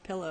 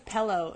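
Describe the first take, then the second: First: Said in the usual way. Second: "pillow" said with an eh, as pellow; mimicked mispronunciation. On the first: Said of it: "instead of pillow". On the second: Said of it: "Samantha says pillow".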